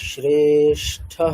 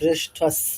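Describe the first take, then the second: First: The word ends with a breathy h-sound. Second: The word ends with an s-sound. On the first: "বিসর্গ করে নিতে পারি" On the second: "যদি বিসর্গ না করি তাহলে অ্যাটলিস্ট ওটাকে বলতেই হবে শ্রেষ্ঠাস"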